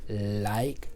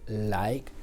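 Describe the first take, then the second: The two takes are said the same way.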